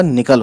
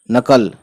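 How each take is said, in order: First: निकल with a short "i" in the first syllable; निकल, opening on "ni" rather than "na"; corrected reading NIKAL. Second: नकल with a short "a" in the first syllable; नकल, opening on "na" rather than "ni"; mistaken reading NAKAL. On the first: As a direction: say निकल as "ni-kal". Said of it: "निकल होगा". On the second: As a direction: say नकल as "na-kal". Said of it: "बिल्ली बचकर नकल नहीं होगा". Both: Shown as a demonstration.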